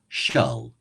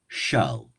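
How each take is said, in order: First: The L is dark, like in milk. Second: The L is dark, like in milk.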